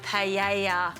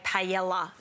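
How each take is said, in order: First: The double L is said as a Y sound. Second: The double L is said as an L sound. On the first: The speaker calls it right. "I've said it right?" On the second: The speaker calls it wrong. "a lot of my friends say paella. No"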